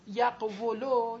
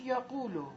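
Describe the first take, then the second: First: "یقولو" laboured, with a "wu" after the q; harder form. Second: "یقولو" with one smooth long "u"; eased form. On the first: Teacher showing what was harder, heavy "یقولو" as "yaq-wulo". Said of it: "یه خورده سخت تره بود". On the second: Teacher showing the result, eased "یقولو" as "yaqulo". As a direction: say "یقولو" easily as "ya-qu-lo". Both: Shown as a demonstration.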